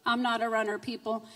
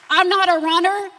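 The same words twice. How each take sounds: First: Soft wry aside. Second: Loud, firm, and pitched up; emphatic declaration. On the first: Joking with the congregation, she says it softly. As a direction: lower and softer, almost confiding. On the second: Preaching to the church, she declares it loudly. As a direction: insist on it with force. Testimony builds in force. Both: Real, not acted.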